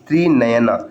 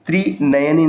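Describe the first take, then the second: First: त्रिनयना ending in long "aa"; correct form. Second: त्रिनयनी slowly, ending in "ee"; wrong form. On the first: Teacher giving the correct form, "naa" ending on त्रिनयना. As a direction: say त्रिनयना with final "naa", falling. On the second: Teacher citing the rejected form, "nee" ending on त्रिनयनी. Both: Shown as a demonstration. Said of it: "त्रिनयना शुद्ध होगा".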